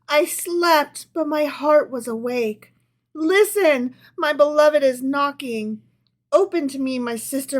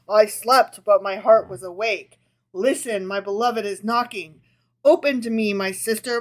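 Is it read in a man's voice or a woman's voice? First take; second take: woman; man. First: It is read in a woman's voice. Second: It is read in a put-on man's voice.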